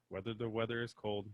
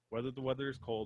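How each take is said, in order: First: It is said slowly, word by word. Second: It is said quickly in one go.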